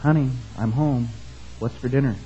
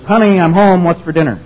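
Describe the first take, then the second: First: Hushed, softened voice; stage-murmur to the wife, close and soft; mock whisper. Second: Loud, high call through the house. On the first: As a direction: say it as if into her ear. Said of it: "goes up to her and whispers". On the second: Acted. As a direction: call to an unseen wife from the front door. Acted husband calling through the house.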